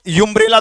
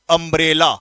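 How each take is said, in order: First: यूम्ब्रेला started with a 'you' sound; यूम्ब्रेला said as 'you-mbrella' with a y-glide; wrong reading. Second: अम्ब्रेला started with a short 'uh' sound; अम्ब्रेला said as 'uh-mbrella', no y-glide; correct reading. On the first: Teacher shows students the wrong way: यूम्ब्रेला starting on 'you'. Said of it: "यूम्ब्रेला तो नहीं बोलोगे". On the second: Teacher gives students the right form: अम्ब्रेला with a plain 'a' start. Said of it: "इसको बोलेंगे हम अम्ब्रेला". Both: Shown as a demonstration.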